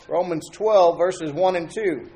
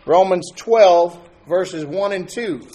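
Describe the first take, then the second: First: Said in the usual way. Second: Louder and slow, "twelve" drawn out; emphatic scripture call. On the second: Shown as a demonstration. Preacher to congregation, announcing the passage loud and slow.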